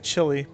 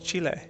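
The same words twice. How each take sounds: First: The name is said in an American way. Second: The name is said in the local way. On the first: This is how people in the speaker's country say it. "We say Chile" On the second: This is how the name is properly said. "but I think it's Chile"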